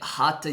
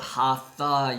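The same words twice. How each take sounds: First: The middle consonant is a t sound. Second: The middle consonant is a th sound. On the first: The speaker calls it right. "So the correct way of saying it" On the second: The speaker calls it wrong. "sometimes called Hatha Yoga"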